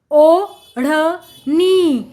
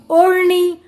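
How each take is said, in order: First: ओढ़नी very slowly, as ओ … ढ़ … नी; syllable by syllable. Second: Said in the usual way. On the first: Shown as a demonstration. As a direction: separate and stretch each syllable of ओढ़नी. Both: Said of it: "जोड़कर पढ़ेंगे".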